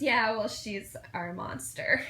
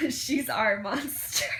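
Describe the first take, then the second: First: Said in the usual way. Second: "She's our monster" slow, higher and louder, relished; savoring the line. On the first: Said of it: "And Dean goes". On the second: Retold or imitated. Fan relishing her favourite Dean line, slow and louder. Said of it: "I might make that my new U R L".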